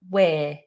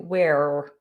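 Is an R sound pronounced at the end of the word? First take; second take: no; yes. First: No R sound is pronounced at the end. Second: An R sound is pronounced at the end. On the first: The speaker calls it right. "Just we're" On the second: The speaker calls it wrong. "Don't try and do we're or anything like that"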